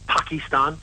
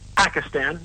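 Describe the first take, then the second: First: It uses a European-style pronunciation. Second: It uses the common American pronunciation. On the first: The speaker calls it wrong. "not Pakistan" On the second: The speaker calls it right.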